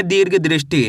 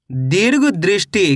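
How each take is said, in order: First: Said in the usual way. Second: Slow careful reading. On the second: Shown as a demonstration. Teacher showing children how to read दीर्घ दृष्टि, slow and careful. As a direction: read दीर्घ दृष्टि slowly, each part drawn out. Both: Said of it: "कैसे पढ़ेंगे?".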